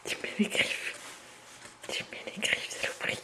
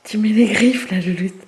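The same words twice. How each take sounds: First: Whispered complaint at the cat; whispered grumble. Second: Sharp loud telling-off; loud scolding. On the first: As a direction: grumble it under your breath. Repeats complaint under breath. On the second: Cat scratches her. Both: Real, not acted.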